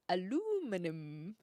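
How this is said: It is said the American way, with four syllables. "the Americans say aluminum"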